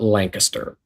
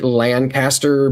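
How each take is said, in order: First: The name is said the local way. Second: The name is said the common outsider way. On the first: This is how people from the area say it. "if you're from here, we call it" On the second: This is how people from elsewhere say it. "most people would pronounce it"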